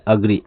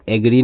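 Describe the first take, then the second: First: अग्री opening on a short "uh"; correct pronunciation. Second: एग्री opening on an "ay" vowel; mispronunciation demo. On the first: Teacher models agree for learners, अग्री with an "uh" start. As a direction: say अग्री as "uh-gree". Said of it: "एग्री नहीं पढ़ते हैं". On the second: Teacher warns learners off a misreading, एग्री with an "ay" start. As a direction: say एग्री as "ay-gree". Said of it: "इसको एग्री पढ़ना गलत है". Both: Shown as a demonstration.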